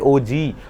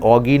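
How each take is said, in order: First: It is said as two letters, 'O G'. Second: It is said as one word, 'oggy'. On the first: The speaker calls it right. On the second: The speaker calls it wrong.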